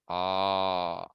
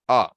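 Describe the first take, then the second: First: The vowel is held for three beats. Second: The vowel is held for one short beat. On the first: "three lengths" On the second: "one length"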